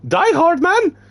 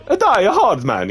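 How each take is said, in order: First: Very high, loud Die Hard Man?; a rough first take of Die Hard Man? in character; first try character voice. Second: High, loud, slow A Die Hard Man; corrected take. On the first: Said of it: "Wait, wait". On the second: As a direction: redo A Die Hard Man slower in character. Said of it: "Yeah, that's better". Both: Acted.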